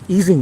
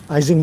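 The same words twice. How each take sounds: First: Ising is said the original, precise way. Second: Ising is said the familiar, anglicized way. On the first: "if you want to be completely correct about the pronunciation" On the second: "I'll go with Ising because nobody will understand what I'm saying"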